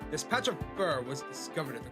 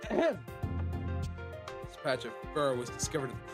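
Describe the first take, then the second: First: It is said in the speaker's plain voice. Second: It is said in a put-on character voice. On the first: The speaker calls it wrong. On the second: The speaker calls it right.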